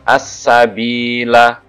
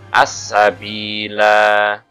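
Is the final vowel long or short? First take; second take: short; long. First: The final vowel is short. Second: The final vowel is lengthened. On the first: The reading continues without stopping. "itu kalau wasol" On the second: The reader stops at this word. "kalau wakof maka"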